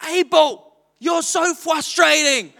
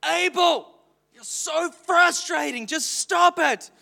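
First: High, slow mock scolding with a laugh; a child parroting her father; little girl copying dad. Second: High, slow exasperated scolding; frustrated parent. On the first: Daughter Dawn copying her father's scolding, mock-exasperated. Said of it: "And Dawn goes". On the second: Retold or imitated. Father retelling how he snapped at his toddler, exasperated. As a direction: let the frustration out on the child. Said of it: "I get so frustrated".

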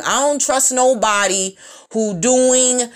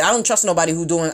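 First: Each word drawn out slowly; deliberate slow repeat. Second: Said in the usual way. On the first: Shown as a demonstration. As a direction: spell it out word by word. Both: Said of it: "repeats slowly".

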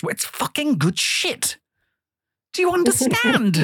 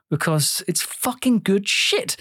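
First: Lightly voiced impression of Nico, slow; a hint of Nico's accent, drawn out; half-hearted Nico impression; imitating Nico. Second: Said in the usual way. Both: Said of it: "in the words of Nico".

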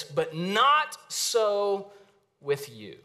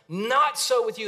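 First: Weighty, slow "But not so with you"; emphatic. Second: "Not" hit high and loud, the rest falling; ringing restatement of the key line; emphatic repeat. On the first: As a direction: stress on "not", drawn out very slowly. Preacher stresses the key line. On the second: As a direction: proclaim "Not so with you" to the whole room. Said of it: "Underline that sentence". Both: Shown as a demonstration.

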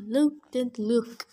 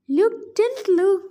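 First: Said in the usual way. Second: Luke didn't look, with didn't stressed high, louder and slow; stressed retake. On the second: Shown as a demonstration. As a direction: lean hard and slow on didn't. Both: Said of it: "oh, Luke didn't look".

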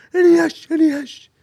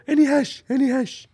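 First: Very high, loud strained asking; hammed-up begging for hash, pitched way up; imitated deaf traveller. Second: High loud pleading voice, much higher and louder; mock the deaf guy begging for hash, pitched up; imitated deaf traveller. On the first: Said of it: "So he was like". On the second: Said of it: "this guy would come up to me and go".

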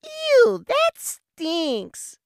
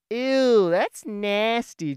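First: Put-on very high, loud squeal of a grossed-out little boy; squeaky little kid. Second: Loud, disgusted little brother's yell, slowing on nasty; kid yelling in disgust. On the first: Five-year-old brother squeals at the cow patty, very high and loud. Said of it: "you could just hear a voice go". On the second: Retold or imitated. Little brother yells at big brother walking ahead, loud and disgusted. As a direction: shout it like a grossed-out little kid. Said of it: "he just yells".

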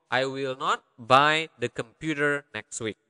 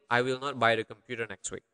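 First: Phrase by phrase, with small gaps; careful, measured. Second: Fast, joined-up sentence without gaps; quick run-through. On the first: Teacher breaking down a translation for learners, careful and measured. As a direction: spell out the sentence unhurriedly for learners. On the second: Teacher repeating the full translation, quick run-through. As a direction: run the whole sentence together briskly. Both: Shown as a demonstration.

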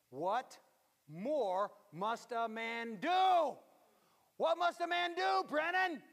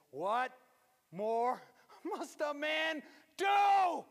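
First: Put-on loud, slow, high scolding of an old mother; irritated shout. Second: Loud, high, slow, half-laughing shout; retold shout. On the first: Mother scolding Brennan in a loud, high shout. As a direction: shout it at him, finger in his face. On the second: Preacher retelling mother's scolding in a loud laughing shout. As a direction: bellow it again, laughing through it.

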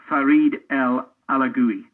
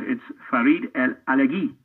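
First: ALAGUI said the anglicized way, ending in "GOO-ee"; common mispronunciation. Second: ALAGUI said the French way, ending in a hard "ghee"; player's own pronunciation. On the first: Commentator quoting how others said a player's name, mispronounced Alagui as "ala-GOO-ee". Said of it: "I'd heard people say that". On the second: Player correcting a commentator on his name, Alagui pronounced "ala-GHEE". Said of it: "He said". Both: Retold or imitated.

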